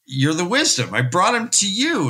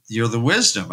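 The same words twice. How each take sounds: First: Higher, urgent pleading; pleading harder with the healer; rising plea. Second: Said in the usual way. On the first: Retold or imitated. Son pleading, second plea.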